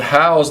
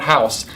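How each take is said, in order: First: It is pronounced like the verb house. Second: It is pronounced like the noun house. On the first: To enclose and provide for something. The speaker calls it right. "The verb house" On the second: A building or structure. The speaker calls it wrong. "not house"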